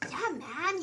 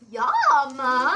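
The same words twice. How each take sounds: First: It has a natural, subtle Spanish accent. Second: It has a heavily exaggerated Spanish accent.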